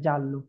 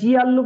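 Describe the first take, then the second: First: The word is said as two syllables, jal-lo. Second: The word is split into three syllables, gi-al-lo. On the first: The speaker calls it right. "আমরা বললাম জানলো" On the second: The speaker calls it wrong. "এটাকে জি আল্লু বলতে পারবে না"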